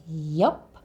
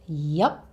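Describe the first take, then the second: The two takes are said the same way.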